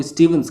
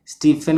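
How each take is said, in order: First: "स्टीवंस" with a v sound in the middle; English-type pronunciation. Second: Said in the usual way. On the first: Shown as a demonstration. Teacher showing how English types say Stephen's, "स्टीवंस" with a v. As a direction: say "स्टीवंस" with v in place of f. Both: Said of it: "स्टीफन को स्टीवंस कहते हैं".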